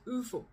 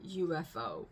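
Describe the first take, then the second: First: It is pronounced the Swedish way. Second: It is pronounced the English way. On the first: "in Sweden we call it U F O" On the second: "in English you say U F O"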